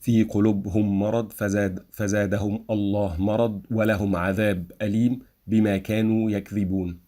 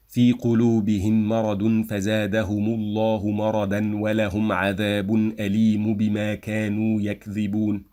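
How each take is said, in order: First: A small stop after each word, in مرض فزادهم; staccato. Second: Words flowing together, مرضا and عذابٌ with endings; linked recitation. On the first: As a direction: recite word by word, pausing briefly. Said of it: "I will have, like, a small stop after each word". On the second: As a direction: link every word smoothly, voicing case endings. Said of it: "I will link all these words together". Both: Shown as a demonstration.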